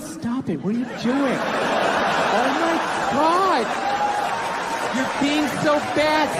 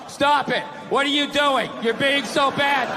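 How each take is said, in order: First: It is said in a coy, playful tone. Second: It is read out in a flat, dull tone.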